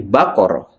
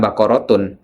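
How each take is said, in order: First: The word ends with a soft 'h' sound. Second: The word ends with a full 'tun' syllable. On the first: The reader stops at the end of this word. The speaker calls it right. "tapi baqarah" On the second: The reading continues without stopping, as in everyday Arabic. The speaker calls it wrong. "Jadi bukan baqaratun"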